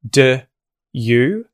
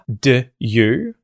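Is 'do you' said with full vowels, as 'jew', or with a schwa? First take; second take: schwa; schwa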